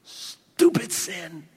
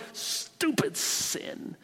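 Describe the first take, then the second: First: Disgusted scorn. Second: Slow whispered "Stupid sin." with a much higher peak on "Stupid"; hissed whisper. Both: Shown as a demonstration. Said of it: "That should be our attitude towards sin".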